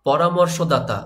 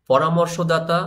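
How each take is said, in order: Both takes have the same delivery.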